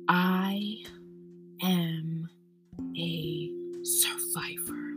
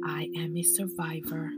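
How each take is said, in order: First: It is said forcefully, with strong emphasis. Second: It is said plainly, without extra force. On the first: "One more time with emphasis" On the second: "Say it with me again"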